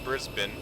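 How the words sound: It is said the Australian way. The speaker calls it right. "that's how uh, you know Australians pronounce it"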